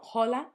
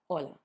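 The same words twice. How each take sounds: First: The word starts with an audible h sound. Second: The word starts with a vowel, h silent. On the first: The speaker calls it wrong. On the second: The speaker calls it right.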